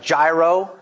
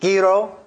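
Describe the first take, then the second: First: The word begins with a plain j sound. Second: The word begins with a throaty, choked h. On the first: The speaker calls it wrong. "they looks like gyro" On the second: The speaker calls it right. "but it's actually gyro"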